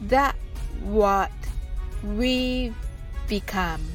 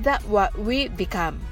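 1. このフレーズはゆっくり言います。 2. このフレーズは速く言います。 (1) "はじめはゆっくりです。" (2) "最後に早く言ってみましょう。"

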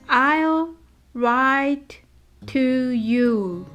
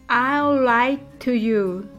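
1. このフレーズはゆっくり、一語ずつ言われています。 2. このフレーズは速く、単語がつながって言われています。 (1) "はじめはゆっくりです。" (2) "次に早く言ってみましょう。"

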